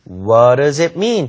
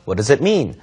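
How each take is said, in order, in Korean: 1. 천천히 읽으면서 t 소리를 분명하게 냅니다. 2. 빠르게 읽으면서 t 소리를 부드럽게 냅니다.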